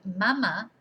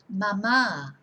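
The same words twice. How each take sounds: First: The stress is on the first syllable. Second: The stress is on the second syllable. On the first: It means breast. "If you don't have an accent, you just say mama" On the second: It means mum or mummy. "with an accent on the second A"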